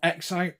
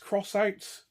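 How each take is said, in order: First: The first word is said as the letter ex. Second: The first word is said as the word cross. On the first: The speaker calls it wrong. "one I'd always call X Out" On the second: The speaker calls it right. "apparently the correct pronunciation is Cross Out"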